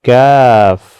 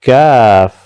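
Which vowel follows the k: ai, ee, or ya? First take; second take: ai; ai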